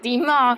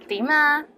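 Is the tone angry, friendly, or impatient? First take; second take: angry; friendly. First: It is said in an angry tone. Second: It is said in a friendly tone. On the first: What do you want? The speaker calls it wrong. "if you say it angrily" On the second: How are you? The speaker calls it right. "say it with a nice voice"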